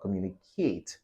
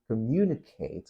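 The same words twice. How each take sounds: First: The stress is not on the second syllable. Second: The stress is on the second syllable. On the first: The speaker calls it wrong. "not communicate" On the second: The speaker calls it right. "the stress is on mu"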